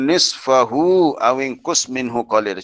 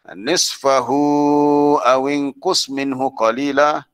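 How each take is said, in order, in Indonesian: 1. Vokal setelah nisfahu dibaca pendek. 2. Vokal setelah nisfahu dibaca panjang. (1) "dia baca pendek pun boleh juga" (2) "Itu mat silah tawilah"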